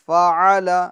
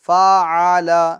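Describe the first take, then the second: First: The final vowel is kept short. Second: The final vowel is stretched out long. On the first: The speaker calls it right. "हरकत को हमें दराज खींचना नहीं है" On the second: The speaker calls it wrong. "ये गलत है"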